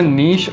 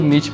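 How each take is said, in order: First: The word ends with a soft 'sh' sound. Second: The word ends with a sharp 'ch' sound. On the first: "वो है नीश" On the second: "इसे कुछ लोग नीच भी बोलते हैं"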